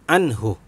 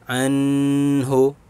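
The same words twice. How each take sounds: First: The n is short, crisp and clear. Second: The n is drawn out with a nasal hum. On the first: The speaker calls it right. "Jadi dibacanya anhu. Nah, itu yang jelas" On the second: The speaker calls it wrong. "Tidak boleh ditarik, tidak boleh mendengung atau samar. Jadi tidak boleh anhu"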